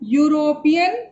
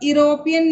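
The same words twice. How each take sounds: First: It begins with a 'y' consonant sound. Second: It begins with a plain vowel sound. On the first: The speaker calls it right. "इसका जो उच्चारण है वो consonant की तरह हो रहा है" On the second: The speaker calls it wrong. "यूरोपियन नहीं पढ़ के"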